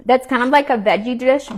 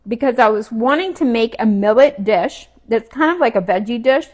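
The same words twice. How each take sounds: First: Said in the usual way. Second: Talking while chewing food. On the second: Real, not acted. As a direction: say it through a mouthful. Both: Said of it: "Sorry, I'm chewing".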